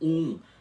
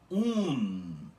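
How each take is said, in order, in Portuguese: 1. Termina em vogal nasal, sem consoante. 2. Termina em consoante N, bem clara. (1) "você não vai pronunciar isso como" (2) "Em balborano é assim"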